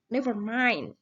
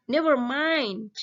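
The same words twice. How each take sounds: First: Said in the usual way. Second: Slow, careful model phrase for the class; teacher modelling an English phrase; model reading aloud. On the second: Shown as a demonstration. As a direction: read it out clearly for pupils to copy. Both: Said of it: "Kemudian responnya kita baca bareng-bareng".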